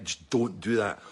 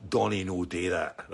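First: Said in the usual way. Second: Lower, slower broad Scots "Donnie no do that". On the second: Retold or imitated. Warning the guy putting his seat back, in broad Scots. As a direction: say "Donnie no do that" in thick Scots dialect, slow and low.

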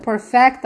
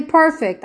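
First: Perfect said as the verb, per-FECT, full -fect ending; "perfect" as an action word, per-FECT. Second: Perfect said as the adjective, PER-fict, stress on the first syllable; "perfect" with a short -fict ending, stressed up front. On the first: To the Bible study, the right reading: verb per-FECT. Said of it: "I didn't say perfect, I said". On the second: To the Bible study, the wrong reading: adjective PER-fict. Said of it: "I didn't say perfect". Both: Shown as a demonstration.

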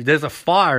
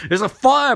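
First: Said in the usual way. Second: Higher mock-urgent cry, FIRE stressed; imitated alarmed call; insistent repeat. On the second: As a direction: punch the word fire, pitched up. Repeats the alarm after "What?.

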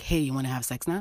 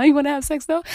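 First: Softer, lower asking; quiet coaxing proposition. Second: Higher, louder, pushy asking; loud insistent proposition. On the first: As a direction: ask it coaxingly. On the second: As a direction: demand it eagerly. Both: Retold or imitated. Imitating herself asking partner.

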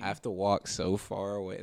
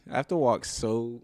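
First: Said in the usual way. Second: Voice crack. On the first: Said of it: "Did you hear my voice crack". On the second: Real, not acted. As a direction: voice cracking mid-sentence. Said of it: "Did you hear my voice crack midway through that sentence".

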